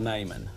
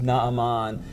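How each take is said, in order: First: The name is given its familiar English pronunciation. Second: The name is given its Hebrew pronunciation. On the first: "You're probably familiar with hearing him called" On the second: "the Hebrew pronunciation for this gentleman is"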